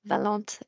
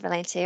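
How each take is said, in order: First: The name is said with a French accent. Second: The name is said with an English accent.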